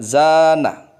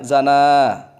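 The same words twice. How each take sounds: First: The first syllable is long and stressed. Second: The second syllable is long and stressed. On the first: To adorn oneself. "Ditekan huruf zainya, ditekan panjang maksudnya" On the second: To commit adultery. "Zana yang ditekan nunnya, tekan panjang"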